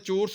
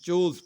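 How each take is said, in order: First: The r sound is pronounced, American style. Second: The r sound is dropped, British style. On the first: "इसको मैं चोर्स नहीं पढ़ रहा हूँ" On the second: "आर pronounce नहीं होता है, तो इसको हम चोर्स पढ़ेंगे"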